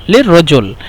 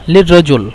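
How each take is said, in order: Both takes have the same delivery.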